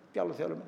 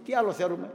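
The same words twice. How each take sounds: First: Τι άλλο θέλουμε repeated much softer; soft echo. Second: Said in the usual way. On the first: Real, not acted. Priest softly echoing his question to the flock.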